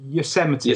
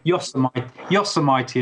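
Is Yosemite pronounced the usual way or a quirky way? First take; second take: usual; quirky. First: The name is pronounced the usual, standard way. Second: The name is pronounced in a quirky, nonstandard way. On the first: This is the ordinary name of the system. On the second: The name is deliberately mangled to tease people.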